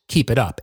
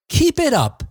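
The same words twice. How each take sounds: First: It is said in a plain, flat way. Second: It is said in a cheerful, upbeat way.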